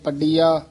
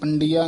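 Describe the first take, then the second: First: The first syllable has no nasal sound. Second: The first syllable has a nasal sound. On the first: The speaker calls it right. "ਇਸ ਤਰ੍ਹਾਂ ਉਚਾਰਨ ਕਰਨਾ ਹੈ" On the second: The speaker calls it wrong. "ਪੰਡੀਆ ਨਹੀਂ ਕਹਿਣਾ ਟਿੱਪੀ ਲਾ ਕੇ"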